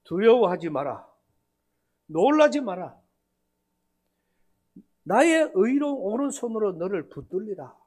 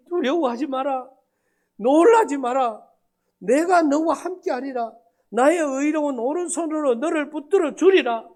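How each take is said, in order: First: Preaching. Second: Raised, louder, tearful recitation; scripture recited through tears, half-acted; mock tearful plea. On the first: Retold or imitated. Pastor preaching the verse back at Wednesday service, solemn. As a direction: proclaim it from the pulpit. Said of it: "거꾸로 설교를 한 겁니다". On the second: Man reciting to pastor through tears, higher and louder. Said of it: "그걸 하면서 울어요".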